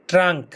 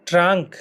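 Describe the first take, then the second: No difference in how they are said.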